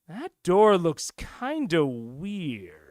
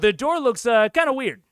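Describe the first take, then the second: First: It is said in a sinister, intriguing way. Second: It is said in a casual, offhand way. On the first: Something important or dangerous lies behind the door. "sounds much more sinister, a little bit dangerous, a little bit intriguing" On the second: There might be something there, but it is no big deal. "The first one sounds like, oh yeah, it's weird"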